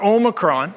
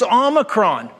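First: The first vowel is a long O sound. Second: The first vowel is a short O sound. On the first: The speaker calls it wrong. "not Omicron" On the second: The speaker calls it right. "it's Omicron, which is the short O"

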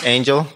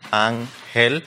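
First: The name is said with English sounds. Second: The name is said with Spanish sounds. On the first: This is an easier form for those who cannot say the original. "if you are not able to pronounce it" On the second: This is the name as the speaker says it himself. "My name is [name]"

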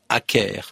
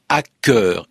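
First: The word ends with an 'air' vowel. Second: The word ends with a French 'eur' vowel. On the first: The word is kept as English. The speaker calls it wrong. "et non pas hacker" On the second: The word is treated as French. The speaker calls it right. "la plupart des gens vont prononcer hacker ... comme si le mot avait un suffixe français"

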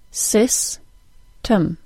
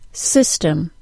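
First: The word is split into separate syllables. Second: The word is said as one smooth unit. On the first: "then I'll break it into syllables" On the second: "I'll say the word as a whole unit first"

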